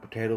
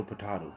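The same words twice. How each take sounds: First: POTATO as "po-TAY-to"; long A in potato; usual pronunciation. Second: POTATO as "po-TAH-to"; joke pronunciation. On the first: Streamer listing rival pronunciations, potato as "po-TAY-to". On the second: Streamer listing rival pronunciations, potato as "po-TAH-to". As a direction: open "ah" in potato. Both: Shown as a demonstration.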